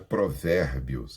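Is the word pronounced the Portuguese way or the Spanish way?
Portuguese. It is pronounced with Portuguese sounds. The speaker calls it wrong. "Não é provérbios"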